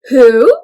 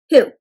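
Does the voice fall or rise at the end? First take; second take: rise; fall. First: The voice goes up at the end. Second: The voice stays flat or falls at the end. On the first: It sounds like a question. The speaker calls it right. "my voice goes up a little bit at the end" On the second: It does not sound like a question. The speaker calls it wrong. "We don't go who"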